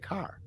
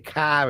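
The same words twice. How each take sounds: First: The r sound at the end is pronounced. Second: The r sound at the end is dropped. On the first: This is the newer habit picked up after moving. "I'm starting to use my R's" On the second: This is the old local way of speaking. "I don't say car as much"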